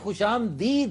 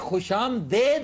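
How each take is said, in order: First: The last syllable has an 'ee' vowel. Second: The last syllable has an 'ay' vowel. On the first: This is the original Persian form. The speaker calls it right. "खुशामदीद है" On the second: This is the Urdu-ized form. The speaker calls it wrong. "ये खुशामदेद नहीं"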